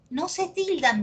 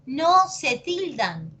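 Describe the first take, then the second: First: Said in the usual way. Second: "No se tildan" drawn out, higher pitched; slow emphatic repeat. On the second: Real, not acted. Teacher drilling a rule into students, slow and emphatic. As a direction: spell out "No se tildan" slowly, word by word.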